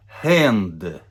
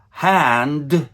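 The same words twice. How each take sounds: First: Put-on "hand" with a Russian e vowel, Russian accent. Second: "Hand" with an open flat æ vowel; correct hand. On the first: Teacher imitating Russian learners, Russian accent. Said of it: "Russian people would say". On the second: Shown as a demonstration. Teacher giving the correct American hand. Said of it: "Russian people would say hand".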